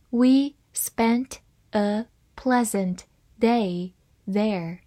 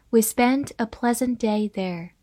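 First: Slowly, word by word with pauses; slow reading. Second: Said in the usual way. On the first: Shown as a demonstration. Teacher reads the example sentence for learners, slow reading. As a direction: read it slowly for learners, each word apart. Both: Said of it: "慢慢来读".

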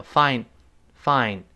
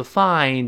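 First: "find" said as "fine"; "find" ending on n; dropped final d. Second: "find" with the d released; careful, complete "find"; full final d. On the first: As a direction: lose the d at the end of "find". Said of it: "So find变成fine". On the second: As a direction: finish "find" on an audible d. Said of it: "读得快的时候也会失爆". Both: Shown as a demonstration.

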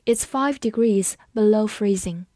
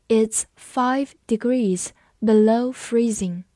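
First: Said in the usual way. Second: Slow reading in separated word groups; 慢速示范朗读. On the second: Shown as a demonstration. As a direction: read slowly, pausing after each word or two. (慢慢朗读，词间停顿) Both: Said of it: "我们慢读一遍".

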